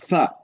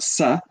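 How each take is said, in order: First: The syllable starts with a soft th sound. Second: The syllable starts with a hissing s sound. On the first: The speaker calls it right. "It's tha" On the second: The speaker calls it wrong. "It's not sa"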